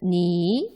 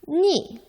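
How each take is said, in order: First: The pitch rises from middle to high. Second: The pitch falls sharply from high to low. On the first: "이성으로는" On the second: "사성으로는"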